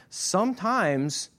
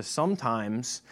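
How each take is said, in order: First: "sometimes" drawn out slowly on a high pitch; stressed sometimes. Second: Said in the usual way. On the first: Shown as a demonstration. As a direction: lift and stretch "sometimes" to make it land.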